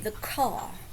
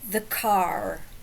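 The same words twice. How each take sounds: First: The R at the end is dropped. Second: The R at the end is pronounced. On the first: "but they would say the car" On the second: "think of the car"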